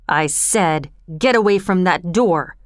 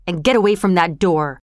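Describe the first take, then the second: First: Low, deliberate threat held short of a yell; menacing, not yelling. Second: Firm, controlled threat; quiet menace. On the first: Bill, pistol pointed at Oliver, low menacing order. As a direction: repeat the order with controlled menace. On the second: Bill warns Oliver off the door, controlled menace. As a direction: order him back without yelling. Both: A narrator's reading. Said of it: "Bill didn't yell it".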